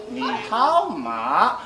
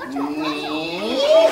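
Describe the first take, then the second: First: Ni hao ma with a slow wrong singsong tone; mock wrong-tone Ni hao ma. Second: Ni hao said with careful rising-falling Mandarin tones; Ni hao in clear Mandarin tones. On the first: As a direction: drag out Ni hao ma in the wrong tones. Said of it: "You can't say". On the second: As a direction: demo the correct tones of Ni hao. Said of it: "you have to say exactly this way". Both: Shown as a demonstration.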